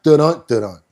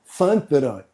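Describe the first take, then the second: First: It begins with a 'd' sound. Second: It begins with a 'th' sound. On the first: The speaker calls it wrong. "Y'all saying it wrong" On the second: The speaker calls it right. "T H U N T A D U N T"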